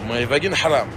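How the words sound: The name is said with an Arabic pronunciation. "Mais en arabe, ça se dit"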